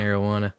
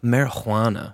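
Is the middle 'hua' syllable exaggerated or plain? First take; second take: plain; exaggerated. First: The middle syllable is said plainly. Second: The middle syllable is a strong, breathy 'hua'.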